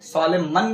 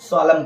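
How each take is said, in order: First: The final N sound is pronounced. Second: The final N sound is silent. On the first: The speaker calls it wrong. "सोलेमन नहीं पढ़ेंगे" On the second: The speaker calls it right. "सोलम पढ़ेंगे"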